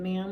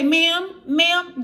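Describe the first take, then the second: First: Said in the usual way. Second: High, loud, calling ma'am, ma'am after you. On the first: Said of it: "like, you're really been drinking". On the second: Retold or imitated. Store clerk calls after a fleeing shoplifter, high loud ma'am.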